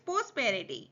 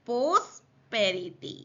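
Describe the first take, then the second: First: The word is said smoothly in one go. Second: The word is broken into separate syllables. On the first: "अब इसको साथ में बोलना है" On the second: "तोड़ और जोड़ के बोलना है"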